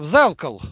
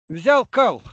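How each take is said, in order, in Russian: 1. Здесь одно ударение, произносится как одно слово. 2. Здесь два ударения, произносится как два слова. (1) "И тогда это второе ударение теряется" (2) "ударение не туда"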